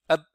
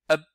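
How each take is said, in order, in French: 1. La consonne finale est gardée muette, à peine audible. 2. La consonne finale est gardée muette, à peine audible.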